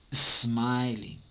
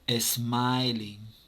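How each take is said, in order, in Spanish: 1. La palabra empieza directamente con el sonido s. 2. Una vocal 'e' extra va antes de la s. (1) "No, es smiling" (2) "le ponemos una E antes de la S"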